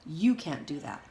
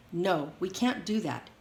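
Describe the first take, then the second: First: You made the key word, falling; stress on you. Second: Can't pressed down, slower pace; stress on can't. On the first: Leonard turning it back on Jeannie, stress on You. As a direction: lean on You, not on can't. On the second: Leonard insisting to Jeannie, stress on can't. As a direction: lean on can't, slow and firm. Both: A narrator's reading.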